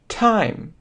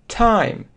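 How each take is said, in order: The two takes are said the same way.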